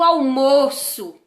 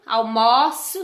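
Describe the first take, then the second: First: The stressed O vowel is closed. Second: The stressed O vowel is open. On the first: It is the noun, the lunch. "com o O aí fechado" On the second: It is the verb, to have lunch. "com o O aberto"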